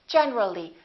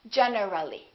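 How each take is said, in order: First: It is said with three syllables. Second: It is said with four syllables. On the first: The speaker calls it right. "we say generally. Generally" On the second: The speaker calls it wrong. "not generally"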